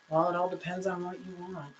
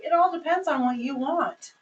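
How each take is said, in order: First: Dismissive hedge. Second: "It all depends on what you want" said bright and friendly, lifted on "all"; positive and upbeat. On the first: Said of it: "no words instead of flow words". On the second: Host reframing the answer for a guest, upbeat and friendly. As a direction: brighten it, lean into "all" warmly. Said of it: "in a positive, positive way". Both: Shown as a demonstration.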